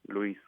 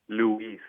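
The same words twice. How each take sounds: First: It sounds Spanish, without that emphasis on the U. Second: It sounds English, with emphasis on the U. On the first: "In Spanish, it's just Luis" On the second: "you being a speaker, English speaker, it'll be Luis. There's an emphasis on the U"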